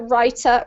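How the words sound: The middle consonant is a clear T. "in the U K accent, we pronounce the T usually"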